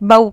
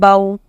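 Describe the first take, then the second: First: The syllable is said abruptly with a hard jerk. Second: The syllable is said gently and softly. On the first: The speaker calls it wrong. "It should not be pronounced like bow. No, not with a jerk, not to be read hardly" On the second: The speaker calls it right. "It should be read very softly"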